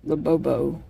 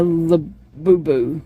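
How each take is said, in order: First: "Labobo" with oh in both last syllables; alternative pronunciation. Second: "Labubu" with oo in both last syllables; uncertain pronunciation. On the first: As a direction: say "Labobo" as la-BOH-boh. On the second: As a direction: say "Labubu" as la-BOO-boo. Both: Shown as a demonstration. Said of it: "I don't know how you say it".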